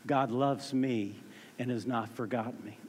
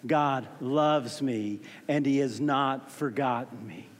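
First: It is said at normal volume. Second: It is said louder.

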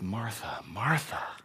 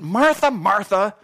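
First: It is said in a gentle, loving tone. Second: It is said in a harsh, scolding tone.

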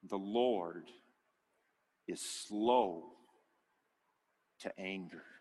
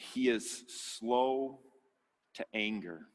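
First: It is said slowly and deliberately. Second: It is said at a normal pace.

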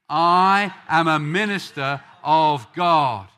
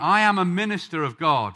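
First: It is said with strong, confident conviction. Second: It is said plainly, without special conviction.

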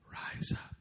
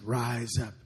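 First: It is said in a whisper. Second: It is said moderately loud.

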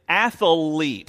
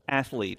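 First: The word is said with three syllables. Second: The word is said with two syllables. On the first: "pronounce that word with three syllables, like I think my dad did" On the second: "pronounce that word with two syllables"

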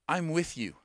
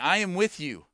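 First: It is said in a warm, compassionate tone. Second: It is said in a dismissive, impatient tone.

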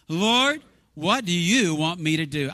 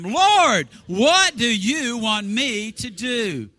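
First: It is said in a calm, ordinary voice. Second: It is said loudly and with fervor.

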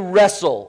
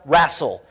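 First: The word is said in a standard accent. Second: The word is said in a Deep South accent.

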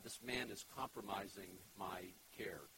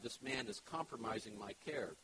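First: It is said at normal volume. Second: It is said more loudly.

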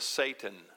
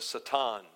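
First: It is said with the usual English pronunciation. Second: It is said with a Middle Eastern pronunciation.

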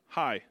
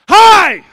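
First: It is said as a flat statement. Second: It is said with a little excitement.

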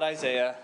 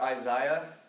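First: The name is said with an American pronunciation. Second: The name is said with a British pronunciation. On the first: "But we're just going to call it Isaiah" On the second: "You ever hear British people, they call it Isaiah?"

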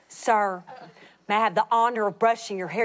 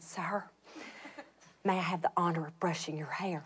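First: It is said more loudly. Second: It is said quietly.

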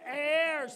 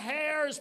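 First: The word starts with no h sound. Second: The word starts with an h sound. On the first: The speaker calls it right. "silent H" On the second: The speaker calls it wrong. "not hairs"

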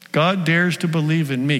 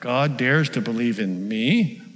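First: The voice falls at the end like a statement. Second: The voice rises at the end like a question. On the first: The speaker states it with confidence. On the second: The speaker doubts that it is true.

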